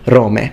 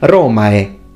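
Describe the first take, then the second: First: The ending is an 'ay' sound. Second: The ending is not an 'ay' sound. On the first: This is the pronunciation of less educated speakers. "Rustic Latin spoken by people who weren't as educated" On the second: This is the educated classical pronunciation. "In eloquent classical Latin"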